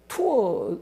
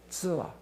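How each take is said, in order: First: It starts with a clear 't' sound. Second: It starts with a 'ts' or 'dz' sound.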